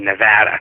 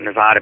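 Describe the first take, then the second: First: The middle A is a flat vowel, as in 'cat'. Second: The middle A is a broad 'ah' vowel. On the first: The speaker calls it right. "you're supposed to say Nevada. It's a flat A" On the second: The speaker calls it wrong. "I call it Nevada"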